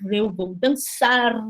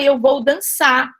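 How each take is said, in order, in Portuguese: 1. O R final do verbo é pronunciado. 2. O R final do verbo é apagado. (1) "em vez de falar" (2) "é muito normal a gente falar assim"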